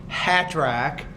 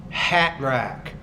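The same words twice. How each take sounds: No difference in how they are said.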